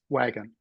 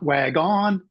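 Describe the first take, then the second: First: The second vowel is a reduced schwa. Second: The second vowel is a full, clear vowel. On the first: The speaker calls it right. "it's wagon" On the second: The speaker calls it wrong. "it's not wag on"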